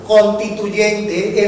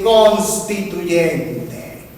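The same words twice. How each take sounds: First: "constituyente" without the first S, as "contituyente"; slow "constituyente", leaving out the S after N; S after N dropped. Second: "constituyente" with the S fully sounded, "cons-tituyente"; slow, drawn-out "constituyente", keeping the S after N; S after N pronounced. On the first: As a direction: say "constituyente" as "con-tituyente". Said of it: "no pronunciar las eses que siguen a la N". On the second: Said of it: "en vez de constituyente". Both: Shown as a demonstration.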